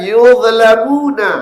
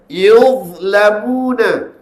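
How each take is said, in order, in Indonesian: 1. Dh dilepas dengan memantul sebelum l. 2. Dh ditahan dan langsung mengalir ke l. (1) "Jangan baca yuzlamuna" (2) "tahan dulu dha tu, masuk lam dulu baru lepas"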